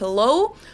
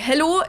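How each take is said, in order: First: An English accent, with a gliding vowel. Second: A German accent, with a straight vowel. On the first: "instead of hello" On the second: "you'd say hello"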